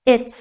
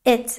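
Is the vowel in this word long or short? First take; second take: short; short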